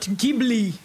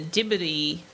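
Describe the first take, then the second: First: It is said with an English-style pronunciation. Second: It is said with a Japanese-style pronunciation. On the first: The speaker calls it wrong. "Not Ghibli. And I did say Ghibli for a very long time" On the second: The speaker calls it right. "I heard the Japanese go Djibouti"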